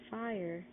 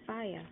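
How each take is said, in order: First: The final R sound is pronounced. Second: The final R sound is dropped.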